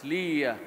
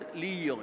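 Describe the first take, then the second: First: The name ends in an 'ah' sound. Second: The name ends in an 'oh' sound. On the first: The speaker calls it right. "It's Lia" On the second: The speaker calls it wrong. "it's not Leo"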